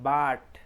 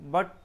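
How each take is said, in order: First: The vowel is not the short 'uh' sound. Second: The vowel is a short, pressed 'uh' sound. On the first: The speaker calls it wrong. "এটা সম্পূর্ণভাবেই ভুল pronunciation" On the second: The speaker calls it right. "আহ short, আহ pressure দিয়ে"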